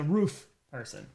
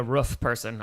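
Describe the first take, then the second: First: Said in the usual way. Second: "roof" with the short vowel of "book"; short-vowelled Midwestern "roof"; regional "roof". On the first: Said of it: "I'm always a roof person". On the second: Shown as a demonstration. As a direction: say "roof" to rhyme with "hoof". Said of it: "I never thought I'd be a roof person".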